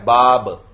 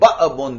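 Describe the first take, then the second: First: The middle is a smooth, soft long vowel. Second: The middle is a sharp glottal catch. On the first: "तो ये अलिफ नरमी से अदा हो रहा है" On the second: "देखो झटके के साथ अदा होता"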